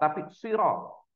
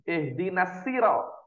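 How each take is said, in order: First: The first consonant is an emphatic heavy s. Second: The first consonant is a plain light s. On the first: The speaker calls it right. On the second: The speaker calls it wrong. "Ada yang pakai sin"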